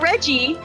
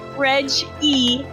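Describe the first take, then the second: First: The name is run together as one word. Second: The name is said as two separate parts. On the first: The speaker calls it wrong. "not Reggie" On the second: The speaker calls it right. "the dad is Reg E"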